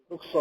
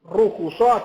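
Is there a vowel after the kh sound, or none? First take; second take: none; vowel. First: No vowel follows the kh sound. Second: A u vowel follows the kh sound. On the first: "wa iskaniha" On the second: "bidammil kha"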